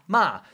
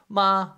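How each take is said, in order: First: It is said with the fourth tone. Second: It is said with the first tone.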